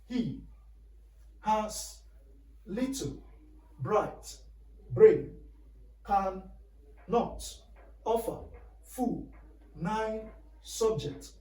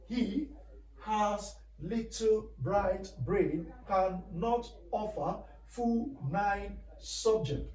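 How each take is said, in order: First: It is said more slowly. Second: It is said at normal speed.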